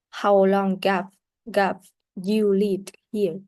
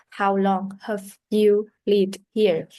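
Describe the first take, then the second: First: Slow, with have linked to long as gap; linked weak have. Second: Slow, careful reading of How long have you lived here?; slow model sentence. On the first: Teacher demonstrating linking weak have, slow and careful. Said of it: "So link the pron-, uh, weak pronunciation of have". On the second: Teacher reading the unlinked example sentence, slow and careful. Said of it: "usually has a weak pronunciation". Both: Shown as a demonstration.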